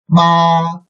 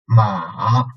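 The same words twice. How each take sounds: First: It is said with the first tone. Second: It is said with the third tone. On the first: "under the first tone" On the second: "third tone"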